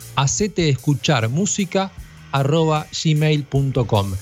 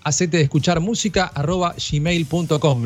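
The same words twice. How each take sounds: First: It is said much more slowly. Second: It is said at a normal speed.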